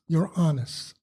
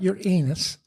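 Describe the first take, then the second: First: The name sounds like the words 'your honest'. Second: The name sounds like the words 'your anus'. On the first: The speaker calls it right. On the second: The speaker calls it wrong. "Not your anus"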